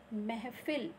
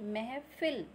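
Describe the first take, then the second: The two takes are said the same way.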